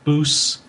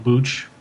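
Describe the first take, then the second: First: The syllable ends with an s sound. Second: The syllable ends with a ch sound. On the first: This is the Americanized way of saying the name. The speaker calls it wrong. "more of like an American pronunciation" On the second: This is the traditional way of saying the name. The speaker calls it right. "if you're going to go old school, it would be"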